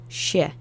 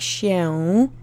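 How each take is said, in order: First: The final sound is swallowed and reduced. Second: The final sound is fully pronounced. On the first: "it's sort of gotten the last syllable swallowed" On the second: "instead of saying się every single time"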